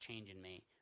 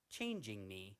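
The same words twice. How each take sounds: First: The word ends without a G sound. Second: The word ends with a clear G sound. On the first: The speaker calls it right. "should be changin'. ... There's no G at the end" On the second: The speaker calls it wrong. "rather than"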